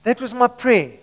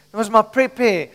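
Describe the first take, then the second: No difference in how they are said.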